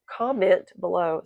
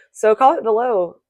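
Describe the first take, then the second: First: Slowed down, said again clearly; slower repeat. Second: Said in the usual way. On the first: Shown as a demonstration. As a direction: repeat it slowly so it lands. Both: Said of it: "slow down or repeat myself".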